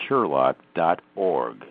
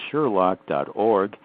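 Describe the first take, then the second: No difference in how they are said.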